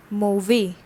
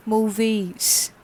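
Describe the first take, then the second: First: "Mauvais" ending on an open vowel, no final S; French masculine pronunciation. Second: "mauvaise" ending on a voiced Z sound; French feminine pronunciation. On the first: Teacher models the masculine adjective for learners, French masculine pronunciation. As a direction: say "Mauvais" with its last consonants silent. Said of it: "What is the pronunciation?". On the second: Teacher shows what the extra E does, French feminine pronunciation. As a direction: sound the final consonant in "mauvaise" as Z. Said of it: "the pronunciation becomes mauvaise".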